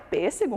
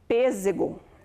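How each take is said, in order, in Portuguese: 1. A consoante do meio é um som de s sibilante. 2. A consoante do meio é um som de z vibrado. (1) "muito bem" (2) "Com som de Z"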